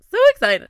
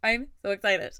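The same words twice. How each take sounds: First: Much higher and louder, squealed out; excited squeal. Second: Said in the usual way. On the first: Real, not acted. Host thrilled about her new podcast, squealing. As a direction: let the excitement burst out.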